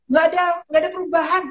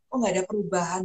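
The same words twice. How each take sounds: First: High, quick imitation of a patient; imitated patient report. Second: Said in the usual way. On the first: Patient reporting to her on WhatsApp, imitated high and quick. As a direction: put on a higher, hurried patient voice.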